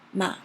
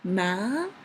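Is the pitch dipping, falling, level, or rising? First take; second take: dipping; rising. First: The pitch dips low, then rises high. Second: The pitch rises from mid to high. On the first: "start really low and had a little bit twist and then rising up high" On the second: "from the mid to high"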